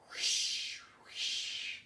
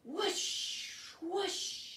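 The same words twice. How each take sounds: First: Breathy wind whoosh. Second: Higher, rising wind whoosh; rising whistling gust. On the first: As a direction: blow it out like wind. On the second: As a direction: wind sound again for the children. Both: Shown as a demonstration. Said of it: "Can you make the sound of wind".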